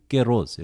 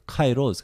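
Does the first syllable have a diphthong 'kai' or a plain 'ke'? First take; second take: plain vowel; diphthong. First: The first syllable is said with a plain vowel. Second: The first syllable is said with a diphthong. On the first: This is how Greeks say it today. "지금 그리스 사람들은 깨로스 이렇게 발음합니다" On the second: This is the usual seminary pronunciation. "신학교에서 일반적으로 카이로스 그러는데"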